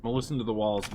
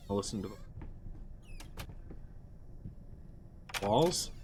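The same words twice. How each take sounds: First: Said in the usual way. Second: "walls?" rising in disbelief, softer; confused rereading, rising on "walls?"; puzzled question. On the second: Shown as a demonstration.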